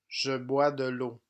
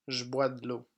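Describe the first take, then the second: First: 'Je' is said as a full syllable with its vowel. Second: 'Je' is reduced to a bare 'zh' sound. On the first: This is how it is written. "Français écrit" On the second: This is how it is spoken casually. "Français parlé. / Je est prononcé j"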